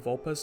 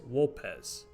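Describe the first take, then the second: First: The name begins with a V sound. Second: The name begins with a W sound. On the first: This is the usual modern way. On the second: This is the classical Latin way.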